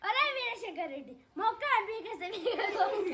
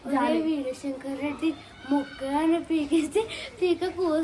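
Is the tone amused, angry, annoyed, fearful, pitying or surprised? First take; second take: annoyed; pitying. First: It is said with irritation. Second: It is said with pity, gently.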